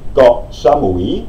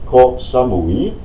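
First: The first word starts with a soft g-like sound. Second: The first word starts with a breathy k. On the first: The speaker calls it right. "sondern Koh Samui" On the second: The speaker calls it wrong. "Es heißt nicht Koh Samui"

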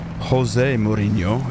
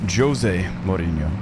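First: The J in Jose is not pronounced. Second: The J in Jose is pronounced. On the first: The speaker calls it wrong. "it's not" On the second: The speaker calls it right. "in Portuguese you pronounce the J's"

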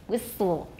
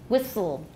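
Both takes have the same delivery.

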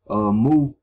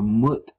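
First: The word ends without a T sound. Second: The word ends with a sounded T.

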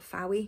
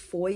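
First: The name is said with two syllables. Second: The name sounds like 'Foy', one syllable. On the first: The speaker calls it wrong. "not Fowey" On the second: The speaker calls it right. "I also think it's Foy"

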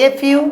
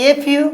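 Both takes have the same delivery.

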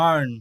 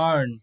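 Both takes have the same delivery.

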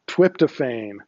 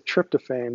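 First: The word begins with a 'tw' sound. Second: The word begins with a clear 'tr' sound. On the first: "when Elmer Fudd pronounces this name" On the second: "he doesn't say tryptophan"

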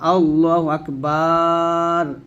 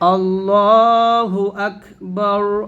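First: The vowel in Akbar is stretched long. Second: The vowel in Akbar is kept short. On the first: The speaker calls it wrong. "এরকম টান দেবেন না" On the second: The speaker calls it right. "তো আজানটা আমরা এভাবে বলবো"

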